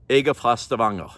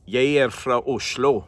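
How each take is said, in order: First: Stavanger dialect. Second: "Jeg er fra Oslo" in an Oslo dialect, R rolled more. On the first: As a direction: say it like a local from Stavanger. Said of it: "then I'll say it in different dialects". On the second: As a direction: demo of how someone from Oslo says it. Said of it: "You roll your R's more". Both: Shown as a demonstration.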